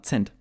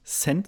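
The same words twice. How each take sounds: First: "Cent" starting with a hard ts. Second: Said in the usual way. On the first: Shown as a demonstration. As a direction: say "Cent" as if spelt Zent. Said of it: "als wäre das mit Z geschrieben". („Cent“ wie „Zent“ mit Z) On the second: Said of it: "die sagen nicht Cent".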